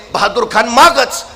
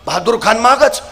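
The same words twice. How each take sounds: The two takes are said the same way.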